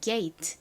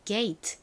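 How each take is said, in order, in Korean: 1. 천천히 말하며 마지막 t를 분명히 터뜨림. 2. 천천히 말하며 마지막 t를 분명히 터뜨림.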